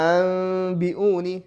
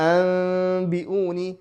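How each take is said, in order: No difference in how they are said.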